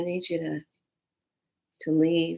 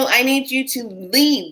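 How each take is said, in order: First: It is said hesitantly, with a faltering repeat. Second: It is said firmly and without hesitation. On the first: The speaker does not really mean it. The speaker calls it wrong. "don't say things like" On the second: The speaker means what they say. The speaker calls it right. "stand in your power of it"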